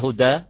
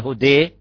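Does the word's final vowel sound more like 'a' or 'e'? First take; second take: a; e. First: The final vowel is an open 'a' sound. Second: The final vowel leans toward an 'e' sound. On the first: "بالفتح" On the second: "بالإمالة"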